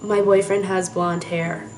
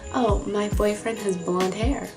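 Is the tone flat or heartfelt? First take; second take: flat; heartfelt. First: It is read flatly, without feeling. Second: It is said warmly, as if truly felt.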